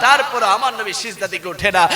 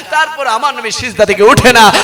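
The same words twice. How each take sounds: First: Said in the usual way. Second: Louder, swelling at the end; emphatic repeat. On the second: Real, not acted. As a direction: drive the line home with growing force. Repeats line with rising force.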